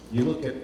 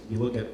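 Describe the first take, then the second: No difference in how they are said.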